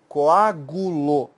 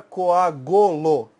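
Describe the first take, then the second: First: "coagulou" very slowly as co-á-gu-lo; correct clear u. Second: "coagulou" said as co-á-go-lo, with o for u; wrong middle vowel. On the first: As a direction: stretch "coagulou" by syllables with u after the g. ("coagulou" bem devagar, com u claro: coágulo) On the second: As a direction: mispronounce "coagulou" with an o after the g. ("coagulou" errado, com o no lugar do u: coágolo) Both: Shown as a demonstration. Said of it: "você não vai falar".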